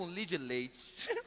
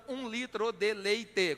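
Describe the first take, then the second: First: "um litro de leite" squeezed to "um lidileit"; Minas-style reduced "um litro de leite"; Mineiro clipped syllables. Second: "um litro de leite" slowly, every syllable sounded; careful, unreduced "um litro de leite"; full syllables. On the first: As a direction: swallow the endings of "litro de leite", three syllables. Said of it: "Em Minas, você compra ... com três". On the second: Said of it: "com seis sílabas". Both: Shown as a demonstration.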